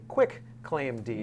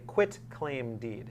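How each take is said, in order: First: The first word ends with a 'k' sound. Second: The first word ends with a 't' sound. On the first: The speaker calls it wrong. "Which is not correct" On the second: The speaker calls it right. "most often mispronounced term in the law"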